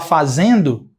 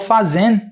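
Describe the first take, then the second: First: The word ends with a full final vowel. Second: The word ends on the n sound. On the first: "Ao invés de falar fazendo" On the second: "eu termino no N. Eu falo fazendo"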